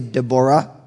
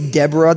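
First: The stress is on the last syllable. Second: The stress is on the first syllable. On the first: This is the Hebrew way of saying it. "they would say Deborah" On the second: This is the American way of saying it. "we say Deborah"

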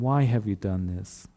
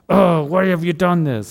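First: It sounds sad and brokenhearted. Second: It sounds angry and harsh.

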